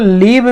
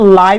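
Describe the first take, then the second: First: The vowel is short, as in 'give'. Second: The vowel is long, as in 'five'. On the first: The speaker calls it wrong. "इसको लिव भी बहुत लोग पढ़ते हैं" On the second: The speaker calls it right. "इसका सही pronunciation लाइव ही कहलाएगा"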